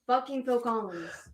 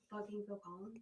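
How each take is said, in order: First: It is said at a louder volume. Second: It is said at a quieter volume.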